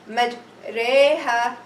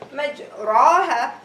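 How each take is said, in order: First: The vowel after r is tilted toward e. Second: The vowel after r is an open a. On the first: "pronounce the letter ra with imala" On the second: "mim fatha, jim sukun, ra fatha, I will say majraha"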